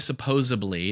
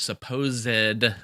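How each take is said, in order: First: No clear 'd' sound is heard mid-word. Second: A clear 'd' sound is heard mid-word. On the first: The speaker calls it wrong. "Don't say supposedly" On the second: The speaker calls it right. "like Zed"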